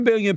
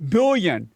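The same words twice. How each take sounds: First: Said in the usual way. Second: "billion" set apart, starting on a clear B; stress on billion. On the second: Shown as a demonstration. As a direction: punch the B in "billion" as a one-word clarification. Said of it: "that's a B".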